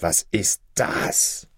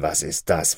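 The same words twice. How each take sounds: First: "Was ist das?" whispered very slowly, rising on "ist"; horrified whisper. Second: Said in the usual way. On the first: A narrator's reading. Shoemaker whispers "Was ist das?" in stunned horror. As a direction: breathe "Was ist das?" in stunned disbelief, slow and voiceless. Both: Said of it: "rief mit Entsetzen".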